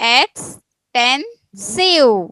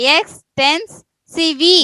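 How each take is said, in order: First: The word ends in a plain v sound. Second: The word ends with an added vee sound. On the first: The speaker calls it right. "ಸಿವ್ ಅನ್ನೋದು" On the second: The speaker calls it wrong. "ವಿ ಅನ್ಬೇಕಾ"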